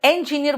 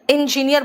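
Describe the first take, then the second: First: "इंजीनियर" begun with open "en"; engineer with E. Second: "इंजीनियर" begun with short "in"; loud "इंजीनियर" with "in" at the start; engineer with I. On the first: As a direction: say "इंजीनियर" as "en-jineer". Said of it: "हाथ उठाओगे". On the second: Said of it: "thumbs down करोगे". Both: Shown as a demonstration.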